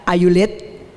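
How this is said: It is said with an Indonesian accent.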